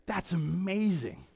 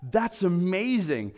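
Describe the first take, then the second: First: Softer, slow, throwaway "That's amazing"; empty, passing praise; offhand. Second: Slow, earnest "That's amazing"; mean "That's amazing" with full weight; heartfelt awe, slowed down; sincere. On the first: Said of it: "It's not just saying". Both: Shown as a demonstration.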